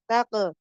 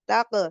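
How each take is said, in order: Both takes have the same delivery.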